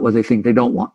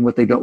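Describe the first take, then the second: First: Emphasis on the word "think"; stress on think. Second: Said in the usual way. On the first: Real, not acted. Teacher correcting himself to add a key word, stress on "think". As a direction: lean on "think" to correct the phrase. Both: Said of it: "the emphasis on the word think".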